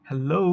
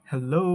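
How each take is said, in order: Both takes have the same delivery.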